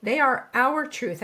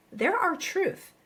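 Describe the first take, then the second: First: Slow and louder, with "are" punched; stress on are. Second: Slow, with "our" lifted high and leaned on; stress on our. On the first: Coach to her audience, insisting by stressing "are". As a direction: hit "are" firmly in "They are our truth". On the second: Coach to her audience, slow and stressing "our". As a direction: land hard on "our" in "they're our truth". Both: Shown as a demonstration. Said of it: "I say truth with a lowercase t".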